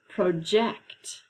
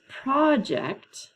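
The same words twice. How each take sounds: First: "project" with the second syllable stressed, pro-JECT; slow "project", weight on the end: pro-JECT. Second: "project" with the first syllable stressed, PRAH-ject. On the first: Teacher reading the second homograph to students, "project" stressed pro-JECT. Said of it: "The next one is". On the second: Teacher reading the first homograph to students, "project" stressed PRAH-ject. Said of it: "the underlined part is what is accented". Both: Shown as a demonstration.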